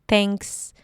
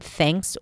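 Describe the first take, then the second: First: It starts with a T with the tongue touching the teeth. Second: It starts with a breathy TH, tongue between teeth. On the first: The speaker calls it wrong. "maybe a dental T" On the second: The speaker calls it right. "pronounce it with the tongue out and allow air to come out"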